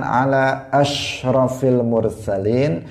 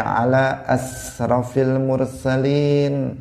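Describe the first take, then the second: First: "ashrafil" with a clear sh, slow and drawn out; correct shin sound. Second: "asrafil" with a plain s, slow; wrong sin sound. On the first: Teacher demonstrates the correct salawat with a clear shin. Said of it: "dia ingin mengatakan". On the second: Teacher demonstrates the wrong salawat with a plain s. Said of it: "dia membaca". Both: Shown as a demonstration.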